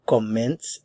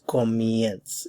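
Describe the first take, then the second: First: Comenz with a plain "e" in the second syllable; original stem sound. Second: Comienz with a "ye" glide in the second syllable; changed stem sound. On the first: Teacher contrasting stem sounds, unchanged "e" in comenz. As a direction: say comenz, pure "e" before the nz. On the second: Teacher showing how the stem change sounds, gliding "ie" in comienz. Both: Shown as a demonstration. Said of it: "this changes the sound".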